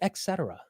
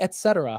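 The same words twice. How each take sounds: First: The first syllable is said with an X sound. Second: The first syllable is said with a T sound. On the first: The speaker calls it wrong. "Where did I get the E X from?" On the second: The speaker calls it right. "It's really et cetera"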